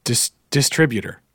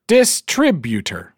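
First: Trying out "distributor" the standard way; hesitant restart, then "distributor" as corrected; corrected pronunciation. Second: "distributor" drawn out, DIS-TRIB-utor; slow, higher "distributor", syllables pulled apart and punched; mispronunciation. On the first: Co-host practising the listener's correction, "distributor" said standardly. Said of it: "tell David that it's pronounced". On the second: Co-host repeating his own mistake, "distributor" slow with DIS punched. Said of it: "not distributor". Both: Shown as a demonstration.

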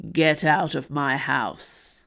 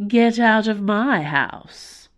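First: Low slow growl. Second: Mocking sweet echo, slow and louder; sweetly. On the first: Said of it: "he growled". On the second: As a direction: say it back sweetly, teasing. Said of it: "he replied sweetly". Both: A narrator's reading.

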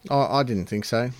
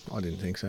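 First: Said in the usual way. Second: Much softer and lower repeat; mock muttered aside. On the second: Shown as a demonstration. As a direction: drop it to a quiet, lower murmur.

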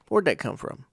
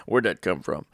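First: WHERE'D pitched up, falling through "come from"; curious inflection. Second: "Where'd that come from?" pitched low, falling; demonstrated inflection. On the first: Asking about someone's belief without arguing, raised questioning inflection on WHERE'D. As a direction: ask "Where'd that come from?" higher, with inquisitive inflection. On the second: Showing listeners the inflection, low falling "Where'd that come from?". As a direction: ask "Where'd that come from?" in a lowered, understated tune.

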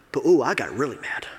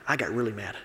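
First: Said in the usual way. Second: "I got really mad" whispered, softer and lower; whispered confession. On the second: Real, not acted. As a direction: confide it in a hushed aside. Admits anger, then repeats it.

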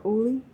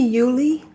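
First: Uli said OO-lee, no Y sound; name without Y onset. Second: Yuli said YOO-lee, with a Y sound; name with Y onset. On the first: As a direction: start Uli on a plain "oo". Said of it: "that might be Yuli as well". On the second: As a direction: start Yuli with a "you" sound. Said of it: "or Uli". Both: Shown as a demonstration.

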